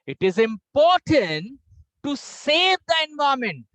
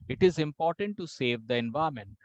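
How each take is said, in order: First: It is said with the pitch raised higher. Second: It is said at one flat, unchanging pitch. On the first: "now I will pitch more high." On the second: "please listen me with no modulation."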